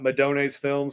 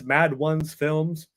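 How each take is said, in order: First: The name is said as one word, 'Madone's'. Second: The name is said as 'mad' plus 'ones'. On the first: The speaker calls it wrong. "not Madone's Films, like I've heard a couple people pronounce it" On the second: The speaker calls it right. "otherwise it's Mad Ones Films"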